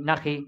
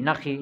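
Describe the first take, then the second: Both takes have the same delivery.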